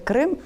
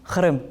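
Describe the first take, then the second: First: The name is pronounced the Ukrainian way. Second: The name is pronounced the Crimean Tatar way.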